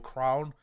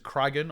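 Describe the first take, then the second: First: The name is said as one syllable. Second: The name is said with two syllables. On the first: "Apparently it's pronounced Crown" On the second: "however you want to pronounce it"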